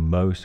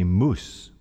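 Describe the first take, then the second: First: The vowel sounds like 'ow'. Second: The vowel sounds like 'oo'. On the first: "instead of saying mouse" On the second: "In Scotland, ... we say moose"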